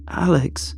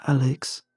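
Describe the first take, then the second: First: Higher, more urgent name call; insistent call. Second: Restrained, slightly higher call of the name; uneasy appeal. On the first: Ignored friend calling after Alex, insistent. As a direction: call after someone ignoring you, pitched up. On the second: Unsettled friend calling Alex back, mildly uneasy. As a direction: call gently, wanting them back. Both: Acted.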